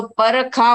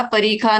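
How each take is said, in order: First: परखा said without the i, run together; wrong take परखा, i dropped; mispronounced parikha. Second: परिखा with a clear short i; correct parikha. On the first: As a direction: say परखा as the contestant's wrong version. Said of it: "परखा बोला था". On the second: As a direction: say परिखा fully, all three syllables. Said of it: "परिखा नहीं बोल करके". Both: Shown as a demonstration.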